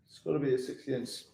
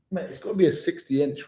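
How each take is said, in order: First: Softer, quick repeat to himself; a quick, much softer repeat, half to himself; quiet fast aside. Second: Said in the usual way. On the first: Real, not acted. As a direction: mutter it again under your breath, quickly.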